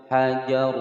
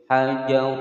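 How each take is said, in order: No difference in how they are said.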